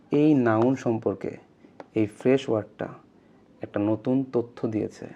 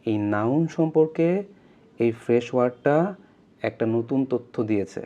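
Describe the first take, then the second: No difference in how they are said.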